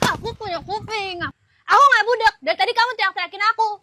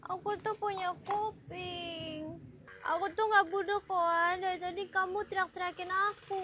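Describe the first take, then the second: First: Loud, quick retort; rushed, raised-voice complaint; angry protest. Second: Soft, slow complaint; gentle, hushed reproach; meek protest. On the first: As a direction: protest heatedly, getting louder. First take, she argues. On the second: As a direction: plead it quietly, drawn out. Second take, she is meek. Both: Acted.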